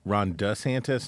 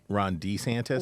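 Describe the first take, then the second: First: The surname's first syllable sounds like 'duh'. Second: The surname's first syllable sounds like 'dee'. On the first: The speaker calls it right. "pronouncing his last name "duh" instead of "d."" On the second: The speaker calls it wrong.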